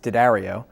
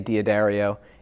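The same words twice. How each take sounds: First: It begins with 'Dah', rhyming with dairy-o. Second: It begins with 'Dee-ah', an added 'ee' sound. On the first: The speaker calls it right. "but in fact it's D'Addario, um, like uh, Hi-Ho D'Addario" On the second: The speaker calls it wrong. "Most folks actually say D'Addario and uh, replace that apostrophe with an I"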